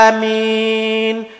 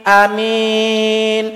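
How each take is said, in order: The two takes are said the same way.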